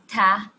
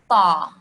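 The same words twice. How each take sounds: First: The T sound is plain and light. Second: The T sound is emphatic and heavy. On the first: The speaker calls it wrong. "not ta, no" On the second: The speaker calls it right. "an emphatic T sound"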